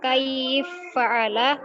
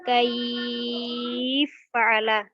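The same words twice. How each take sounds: First: The long vowel is held for two counts. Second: The long vowel is held for six counts.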